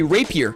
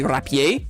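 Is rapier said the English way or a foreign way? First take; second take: English; foreign. First: The word has the usual English pronunciation. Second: The word has a foreign, non-English pronunciation. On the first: The speaker calls it right. "in English, we say rapier" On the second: The speaker calls it wrong. "You don't say rapier"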